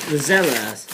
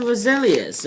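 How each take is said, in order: First: "rosellas" said ro-ZEL-as, short E; "rosellas" with a short stressed ZEL; corrected name. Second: "roselias" said ro-SEE-lee-as, with a long EE; "roselias", stressing a long EE in the middle; wrong bird name. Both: Shown as a demonstration.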